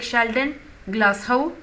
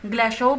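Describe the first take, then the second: First: The name ends with a 'house'-like sound. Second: The name ends with a plain 'oh' sound.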